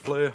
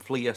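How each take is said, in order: First: The vowel sounds like the 'ur' in 'fur'. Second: The vowel sounds like the 'ee' in 'see'. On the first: This is the speaker's habitual pronunciation. "I call them Fleur" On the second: This is the name's official pronunciation. "they're obviously called Fleer"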